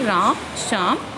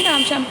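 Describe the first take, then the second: First: A short pause separates the two names. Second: The names run together without a pause. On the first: The speaker calls it right. "थोड़ा थोड़ा सा मैं रुकी" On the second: The speaker calls it wrong. "मैं एक साथ नहीं बोलूँगी"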